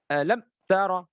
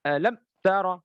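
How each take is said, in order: First: The m is cut off with an abrupt jerk. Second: The same.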